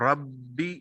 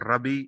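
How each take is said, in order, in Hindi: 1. b की आवाज़ को रोककर दोहराया जाता है। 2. b की आवाज़ छोटी और इकहरी होती है। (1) "ये मुशद्दद है" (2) "बगैर शद के"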